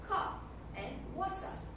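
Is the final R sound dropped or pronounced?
dropped. The final R sounds are dropped. "In British accent itself, the, they often did not pronounce the R sound in the end of the word"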